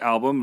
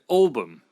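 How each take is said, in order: First: It is said in the speaker's usual accent. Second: It is said in the local regional accent. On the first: This is how the speaker normally says it. "like I would say album" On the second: This is how local people say it. "they would say album"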